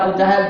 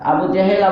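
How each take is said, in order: First: The second word is said with an 'a' sound. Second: The second word is said with an 'e' sound. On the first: "জাহেল বললেও কি সহি" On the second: "জেহেল বললেও সহি"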